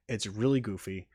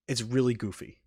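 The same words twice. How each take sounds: The two takes are said the same way.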